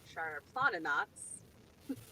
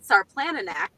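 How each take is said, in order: First: The name is said the native way. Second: The name is said as it is written. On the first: The speaker calls it right. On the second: The speaker calls it wrong.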